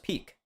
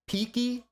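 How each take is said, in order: First: The name is said with one syllable. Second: The name is said with two syllables. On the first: The speaker calls it right. "I thought it was Peak" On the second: The speaker calls it wrong. "Peaky, I don't think, is the right pronunciation"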